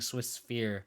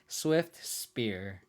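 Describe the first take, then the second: First: It sounds like 'Swiss Sphere', with blurred consonants. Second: It sounds like 'Swift Spear', with clear consonants. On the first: The speaker calls it wrong. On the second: The speaker calls it right.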